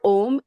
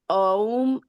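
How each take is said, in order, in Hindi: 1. स्वर एक सामान्य 'o' ध्वनि है। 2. स्वर 'a' से 'u' की ओर सरकता है। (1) "it's not Om" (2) "it is Aum is what I heard"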